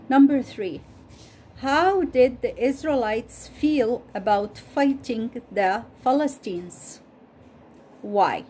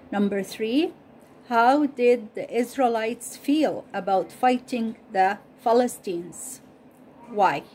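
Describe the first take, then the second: No difference in how they are said.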